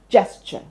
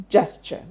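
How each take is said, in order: First: It begins with a J sound. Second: It begins with a J sound.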